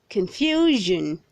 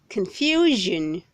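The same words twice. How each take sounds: Both takes have the same delivery.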